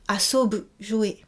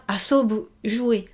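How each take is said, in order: Both takes have the same delivery.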